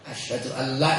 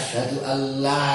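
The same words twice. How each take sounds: First: The vowel in 'la' is short. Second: The vowel in 'la' is long. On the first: Truly there is a god. The speaker calls it wrong. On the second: There is no god. The speaker calls it right.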